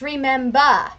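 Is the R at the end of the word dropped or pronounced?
dropped. The final R sound is dropped. The speaker calls it right. "you cannot pronounce R's at all"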